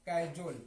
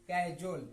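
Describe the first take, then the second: The two takes are said the same way.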